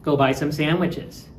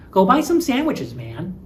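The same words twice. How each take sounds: First: Said in the usual way. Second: High, insistent Go buy some sandwiches man; pushy urging. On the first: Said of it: "You can also use man". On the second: Shown as a demonstration. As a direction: prod a lazy friend into going. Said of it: "you were probably just sitting around".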